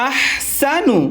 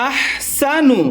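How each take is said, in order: The two takes are said the same way.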